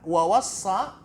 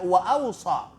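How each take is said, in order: First: The middle 's' sound is doubled, held long. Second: A glottal stop starts the word, single 's'. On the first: "dengan menjadikan huruf sad itu ... ada syaddanya" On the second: "wa ausa ada hamzah di awalnya"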